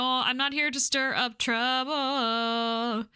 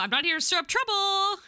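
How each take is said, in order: First: Slow, stretched words near usual pitch; slow, drawn-out delivery. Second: Pitched up, climbing higher to the end; high-pitched protest. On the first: Newcomer assuring the pub regulars, slow and drawn out. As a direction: drag it out, lengthening the last word. Second, stretched take of same line. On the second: Newcomer assuring the pub regulars, high-pitched. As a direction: raise the voice high as you insist. First take of repeated game line. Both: Acted.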